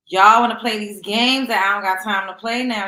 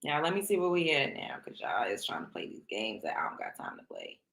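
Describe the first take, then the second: First: Loud, punchy callout. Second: Hushed, breathy whisper, much softer. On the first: Calling out viewers loudly after whispering it. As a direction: throw it at them full voice. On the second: Teasing viewers in a low sneaky whisper. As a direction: drop to a secret whisper. Whispers then shouts same line. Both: Acted.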